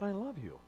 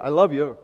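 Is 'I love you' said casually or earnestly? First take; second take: earnestly; casually. First: It is said slowly and with deep sincerity. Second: It is said in a quick, offhand way. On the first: The words are truly meant. The speaker calls it right. "Tell her frequently and meaningfully that you love her" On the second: The words are said out of habit. The speaker calls it wrong. "There's a way of saying this that isn't just"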